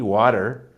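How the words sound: It is said in an American accent. "Whereas I will say a D, water"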